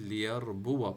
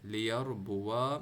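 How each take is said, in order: First: The word ends without a long 'a'. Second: The word ends with a sounded long 'a'. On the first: The speaker calls it right. "बल्कि लियरबुआ पढ़ना है" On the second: The speaker calls it wrong. "लियरबुआ नहीं पढ़ना अपने अलिफ के साथ"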